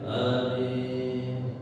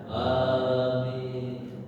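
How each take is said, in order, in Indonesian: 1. Vokal pertama diucapkan pendek. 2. Vokal pertama diucapkan panjang. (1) "Kalau di Mekah dibaca pendek hamzahnya" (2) "Kalau di Indonesia A-nya panjang, dimatkan hamzahnya"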